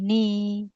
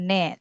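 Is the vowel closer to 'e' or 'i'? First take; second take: i; e. First: The vowel sounds close, like 'i'. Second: The vowel sounds open, like 'e'. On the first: The speaker calls it right. "tetapi ni" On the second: The speaker calls it wrong. "Jangan ne"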